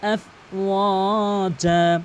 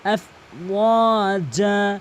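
First: The middle vowel is stretched long. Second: The same.

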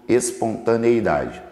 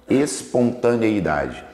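The two takes are said the same way.

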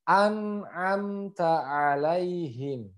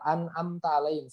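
First: First vowel glottal, then two throaty ain sounds. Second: Every vowel starts with a plain glottal catch. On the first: The speaker calls it right. "yang pertama adalah huruf hamzah, yang kedua huruf ain, yang ketiga huruf ain" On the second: The speaker calls it wrong. "tidak bisa dibaca lempeng a semua"

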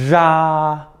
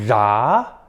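First: It is said with the first tone. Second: It is said with the second tone.

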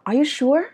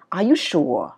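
First: The voice rises at the end. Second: The voice falls at the end. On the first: The speaker calls it right. "Nó sẽ là" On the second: The speaker calls it wrong. "Chứ nó không đọc là"

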